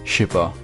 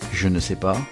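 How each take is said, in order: First: The word ne is left out. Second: Every word is said, including ne. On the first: "to simply je sais pas" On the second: "contracting all the phrases like je ne sais pas"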